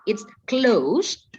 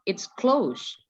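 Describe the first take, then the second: First: The voice rises at the end. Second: The voice falls at the end. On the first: It asks whether something is closed. "naik kan, ... berarti itu adalah ber, bertanya" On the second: It informs that something is closed. "Berarti Miss tuh kasih tahu tutup"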